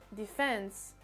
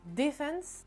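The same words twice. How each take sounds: First: The stress is on the second syllable. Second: The stress is on the first syllable. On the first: "en anglais américain, ça se fera sur la deuxième syllabe" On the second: "en anglais britannique, l'accentuation se fera sur la première syllabe"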